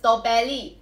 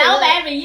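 First: It is said with a Thai pronunciation. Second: It is said with an English pronunciation.

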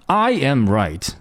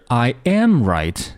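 First: The first word carries the strongest stress. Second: The middle word carries the strongest stress. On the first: Only I am right, not anyone else. "这种感觉强调的是I" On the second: It is a fact that I am right. "对这个动词，这个系动词进行了强调"

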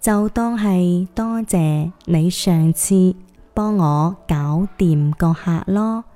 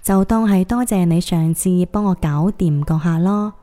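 First: It is said slower still, in phrases. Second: It is said at normal speed.

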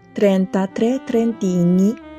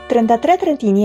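First: The phrase is spoken slowly and carefully. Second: The phrase is spoken at a normal, fluent speed. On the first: "我们再慢速把这一整句话念一遍。" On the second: "我会念一个正常语速版"

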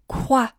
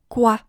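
First: The opening k has a strong puff of air. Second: The opening k has only a little air. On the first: The speaker calls it wrong. "不要发成quoi" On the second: The speaker calls it right. "把开头的k 这个辅音的气流稍微收一点点"

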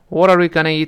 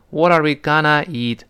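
First: Gonna is said quickly and lightly. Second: Gonna is said slowly and drawn out. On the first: The speaker calls it right. "但语速要是再快一些呢" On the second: The speaker calls it wrong. "不能读成……这好别扭啊"

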